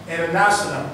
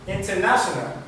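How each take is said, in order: No difference in how they are said.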